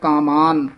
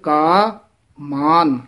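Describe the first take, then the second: First: The two words are run together as one. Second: The two words are kept clearly separate. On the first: The speaker calls it wrong. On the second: The speaker calls it right.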